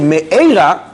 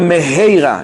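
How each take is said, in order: First: No h sound is heard in the middle. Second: An h sound is heard in the middle. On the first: A curse. The speaker calls it wrong. "you say Me'eira, that's terrible" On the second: Speedily. The speaker calls it right. "say Meheira with a Hey"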